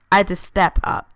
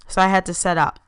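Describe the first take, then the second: First: "step up" said clearly with st and p; fixing the slip: "step up"; corrected to step up. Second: "set up" said as set, without the p; a slip reading "set up" for step up; misread set up. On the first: Narrator rereads the line correctly as "step up". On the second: Narrator misreads "set up" while reading her own story. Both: Shown as a demonstration.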